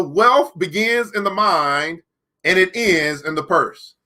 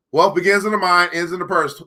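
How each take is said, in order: First: Slow, weighty reading of the quote. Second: Said in the usual way. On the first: Shown as a demonstration. Reading the book's law to viewers, slowly. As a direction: let each word land, slowly.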